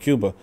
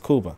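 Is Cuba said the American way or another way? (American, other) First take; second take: American; other. First: Cuba is said with an American pronunciation. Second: Cuba is said with a non-American pronunciation. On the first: The speaker calls it wrong. "the Americans tell you Cuba" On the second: The speaker calls it right. "but it's Cuba"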